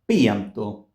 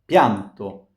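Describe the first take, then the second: First: The i is a separate full vowel syllable. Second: The i glides quickly into the following a. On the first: The speaker calls it wrong. "Otherwise, it would have been pianto, pianto, hmm, with no glide" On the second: The speaker calls it right. "But in pianto, it's pianto"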